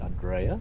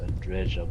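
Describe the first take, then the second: First: The middle consonant is a Y sound. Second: The middle consonant is a J sound. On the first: "maybe the J is pronounced as a Y" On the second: "I've been saying it as Andreja"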